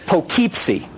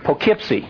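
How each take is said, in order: First: The name is sounded out the way it looks. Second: The name is said the way locals say it. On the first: "I know that's how it looks" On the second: "they pronounce it around here"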